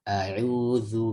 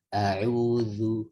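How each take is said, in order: First: The dh sound is light and thin. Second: The dh sound is light and thin.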